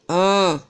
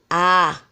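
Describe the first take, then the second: First: The vowel is nasal, through the nose. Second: The vowel is plain, not through the nose. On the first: The speaker calls it right. "o som vai sair pelo nariz" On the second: The speaker calls it wrong. "não é para você ler A"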